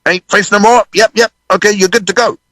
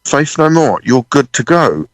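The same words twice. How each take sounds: First: Businesslike runner, pitched well up. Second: Slow, stunned echo of the runner; dazed realisation. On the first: BBC runner with clipboard dismissing the band, brisk call. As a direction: imitate a crew member sending a band off. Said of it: "a B B C runner from the T V show comes down with a clipboard". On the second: Drummer alone backstage realising he's got away with it, dazed. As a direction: repeat it slowly as it sinks in. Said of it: "I'm just there backstage in this corridor going". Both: Retold or imitated.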